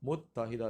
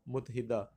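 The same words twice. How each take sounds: First: متحدہ as mut-ta-hida; dictionary pronunciation. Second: متحدہ shortened to mut-hida; common mispronunciation. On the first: Teacher gives the dictionary form, correct pronunciation. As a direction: hold the double t in متحدہ. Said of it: "dictionary کھول کر دیکھیں گے". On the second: Teacher shows the popular form, demonstrated mispronunciation. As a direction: drop the middle ta from متحدہ. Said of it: "غلط العام". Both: Shown as a demonstration.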